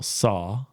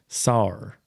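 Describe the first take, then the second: First: The word ends on a vowel with no R. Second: The word ends with an added R sound. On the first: "for example, saw" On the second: "you add an R sound"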